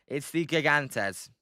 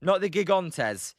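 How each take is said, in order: First: Settling it, "It's the Gigantes"; right Gigantes. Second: "Gigantes" with an English hard g and a flat o; mock the wrong "Gigantes"; quoting the partner's "Gigantes". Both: Shown as a demonstration.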